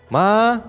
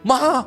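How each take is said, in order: First: The call sounds casual and unimportant. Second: The call sounds urgent, like an emergency.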